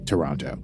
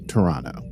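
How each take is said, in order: First: Toronto is said with an American pronunciation. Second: Toronto is said with a local, non-American pronunciation. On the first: The speaker calls it wrong. "I've been pronouncing like an American this whole time" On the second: The speaker calls it right. "you're supposed to call it Toronto"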